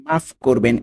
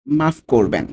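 Both takes have the same delivery.

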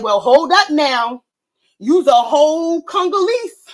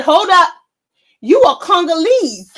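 First: Slow, mildly stern retelling; a hint of a man cutting her off. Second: Louder, higher retold outburst; retelling the man shutting Joy-Ann Reid down, hammed-up loud; mock shout. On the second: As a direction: belt the quote out to top the story. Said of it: "He said".

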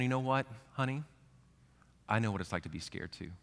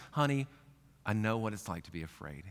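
First: Tender reassurance. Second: Soft, lower comforting voice; tender reassurance. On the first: Parent comforting a scared child, soft and tender. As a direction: soothe a frightened child gently. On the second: God comforting a scared person, soft and tender. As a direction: speak softly to a frightened child. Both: Retold or imitated.

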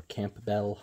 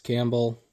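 First: Campbell said as "Camp-bell", P sounded; alternative pronunciation. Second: Said in the usual way. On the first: Shown as a demonstration. Bookseller offers viewers another way to say Campbell, as "Camp-bell". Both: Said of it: "however you wanna say it".

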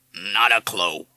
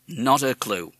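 First: Grave, loud parrot echo. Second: Said in the usual way. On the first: A narrator's reading. Parrot echoing the father's words, grave. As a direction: repeat it solemnly as a parrot. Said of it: "said Madison gravely".

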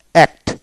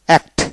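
The two takes are said the same way.

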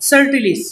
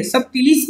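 First: "subtilis" said slowly with no B sound, like "sut-tilis"; silent B. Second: "subtilis" with the B pronounced, as "sub-tilis"; B sounded. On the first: Teacher correcting the pronunciation for students, B silent. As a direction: drop the B in "subtilis", drawn out. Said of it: "बी silent है". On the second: Teacher showing students the version to avoid, B sounded. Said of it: "नहीं बोलना है". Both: Shown as a demonstration.

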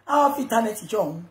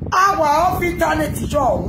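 First: Said in the usual way. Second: 1 shouted catchphrase. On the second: Real, not acted.

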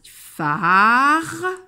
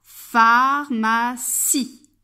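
First: "Pharmacie" in three long syllables with pauses between. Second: "Pharmacie" very slow and louder, in three beats; word for repeating. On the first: Teacher tracing arcs per syllable, "Pharmacie" split slowly. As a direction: break "Pharmacie" apart, louder, holding each syllable. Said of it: "je vais tracer des arcs". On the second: Teacher asking pupil to repeat along, "Pharmacie" slowly modelled. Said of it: "Tu répètes avec moi". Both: Shown as a demonstration.

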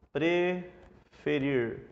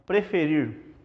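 First: "preferir" split slowly in two, pre... ferir; syllable by syllable. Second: Said in the usual way. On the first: Shown as a demonstration. Teacher sounding out the word for the class, syllable by syllable. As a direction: draw out "preferir" with a break after pre.

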